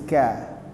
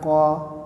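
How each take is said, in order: First: The syllable is thin, with an 'a' vowel. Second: The syllable is thick, with an 'o' vowel. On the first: The speaker calls it right. "huruf kaf juga huruf tipis, ka" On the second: The speaker calls it wrong. "Jangan ko"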